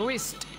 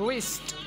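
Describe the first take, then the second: No difference in how they are said.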